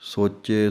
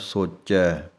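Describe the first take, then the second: First: The word ends with a closer 'e' vowel. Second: The word ends with an open 'ai' vowel. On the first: The speaker calls it wrong. "ਇਹ ਨਹੀਂ ਹੈ" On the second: The speaker calls it right. "ਚੈ ਦੀ ਆਵਾਜ਼ ਨਿਕਲਣੀ ਹੈ"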